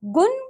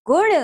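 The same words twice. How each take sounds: First: "गुण" with a dental n, "gun"; wrong pronunciation. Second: Said in the usual way. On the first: Shown as a demonstration. Teacher showing pupils the error, "गुण" mispronounced as "gun". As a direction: end "गुण" on a plain n. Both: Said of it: "अन्य अशुद्धियां कुछ".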